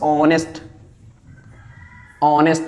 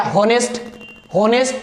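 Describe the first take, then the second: First: ऑनेस्ट starting straight on the O; ऑनेस्ट with the H left silent. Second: हॉनेस्ट with the H sounded; हॉनेस्ट mispronounced with a spoken H; wrong हॉनेस्ट. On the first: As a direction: say ऑनेस्ट with no H at all. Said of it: "तो एच हो जाएगा silent". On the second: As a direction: say हॉनेस्ट with an audible H, questioning. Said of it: "हॉनेस्ट नहीं पढ़ना आपको". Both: Shown as a demonstration.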